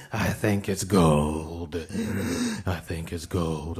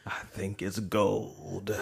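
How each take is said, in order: First: Slow, in a put-on voice; put-on voice quip. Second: Said in the usual way. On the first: Cohost mocking the gold-looking teeth, slow put-on voice. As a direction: repeat the joke as a character. Repeated joke in new voice.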